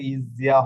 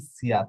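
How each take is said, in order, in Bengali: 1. ব্যঞ্জনটি একটি ঘোষযুক্ত z ধ্বনি। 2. ব্যঞ্জনটি একটি অঘোষ s ধ্বনি। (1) "এটা কিন্তু ইজিয়া হবে" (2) "উচ্চারণ করার সুবিধার্থে এখন শিখে নেবেন যে ইসিয়া"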